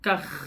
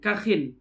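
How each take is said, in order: First: The word ends on a bare kh consonant. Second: The word ends with an added -in sound. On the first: "dikatakan dengan sukunnya kha" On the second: "dengan kasrahnya kha serta ditanwinkan"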